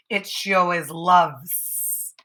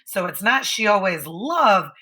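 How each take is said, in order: First: "loves" with a clear final s, slow; right ending stressed. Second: "love" said without the final s; wrong ending. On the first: Teacher showing the correct verb ending. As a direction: lean on the s of "loves". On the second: Teacher showing the wrong verb ending. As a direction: leave "love" bare, the wrong form. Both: Shown as a demonstration. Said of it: "I'm paying attention to my endings".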